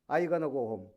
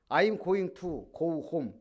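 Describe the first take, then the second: First: Going to is squeezed into one short word. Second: Going to is said as two full words. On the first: "다 줄여버리고 간단하고 한마디로 해버려요" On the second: "I'm going to 이러잖아. go home 안 그래요"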